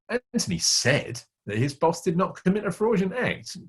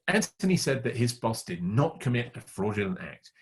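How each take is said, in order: First: The word said carries the main stress. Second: The word not carries the main stress. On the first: He claimed it, but the boss probably did it. "He said he didn't do it, but the meaning is probably he did" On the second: The boss simply did not do it. "He simply didn't do it"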